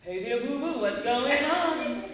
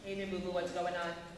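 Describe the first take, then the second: First: The pitch jumps high and low with lively energy. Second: The pitch stays flat with little energy. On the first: The speaker calls it right. "It's not monotone" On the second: The speaker calls it wrong. "Boring, monotone"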